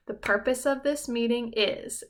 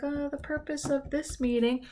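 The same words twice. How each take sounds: First: Said in the usual way. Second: Mumbled, looking down. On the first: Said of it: "we need to look at our team". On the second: Shown as a demonstration. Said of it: "looking down and I was like".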